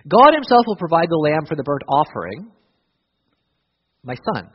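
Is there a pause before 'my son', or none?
pause. A pause sets off 'my son' as an address.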